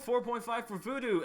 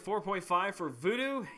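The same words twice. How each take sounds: First: It is said as an excited, cheerful exclamation. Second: It is said as a doubtful, questioning remark. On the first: The score is something to celebrate. "Exclamation point" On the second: The score seems disappointing. "it was a question mark"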